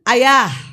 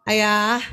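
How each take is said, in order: First: The voice is noticeably higher in pitch. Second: The voice is at a normal pitch. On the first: A second call after being ignored. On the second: A first ordinary call.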